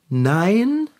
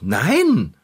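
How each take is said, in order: First: It is said hesitantly, without conviction. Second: It is said firmly and convincingly.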